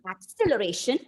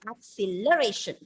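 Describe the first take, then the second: First: The stress is on the second syllable. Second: The stress is on the third syllable. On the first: "Moving on to the second syllable" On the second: "if I put the stress on the third syllable"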